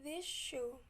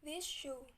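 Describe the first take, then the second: First: The word this ends in an sh sound. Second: The same.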